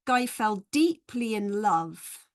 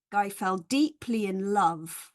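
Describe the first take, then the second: First: "deeply" and "love" stressed, slow and careful; stressed reading, slow. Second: "deeply" and "love" stressed at normal pace; stress pattern. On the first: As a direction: read it slowly, hitting "deeply" and "love". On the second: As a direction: say it through, leaning on "deeply" and "love". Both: Shown as a demonstration. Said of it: "it's actually A".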